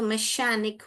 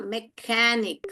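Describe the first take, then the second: First: The middle consonant is a sh sound. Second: The middle consonant is a k sound. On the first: The speaker calls it wrong. "इश पढ़ेंगे तो मैशैनिक हो जाएगा" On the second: The speaker calls it right. "क क का sound बोला"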